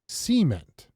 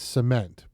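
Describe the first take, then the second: First: The stress is on the first syllable. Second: The stress is on the second syllable.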